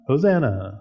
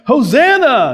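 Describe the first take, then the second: First: It is said flat and unemotional. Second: It is said as a joyful shout.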